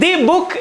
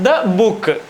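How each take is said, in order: First: 'The' is said with a long 'ee' vowel. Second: 'The' is said with a short 'uh' vowel. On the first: The speaker calls it wrong. "ദി book എന്നല്ല പറയുക" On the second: The speaker calls it right.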